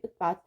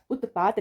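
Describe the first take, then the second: First: उत्पात with t joined to p; no vowel between t and p in उत्पात; correct pronunciation. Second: उत्पात with a vowel after t; wrong pronunciation. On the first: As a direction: say उत्पात as ut-paat. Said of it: "उत्पात पढ़ते हैं". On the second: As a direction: say उत्पात as ut-ta-paat. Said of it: "उत्पात नहीं पढ़ते". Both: Shown as a demonstration.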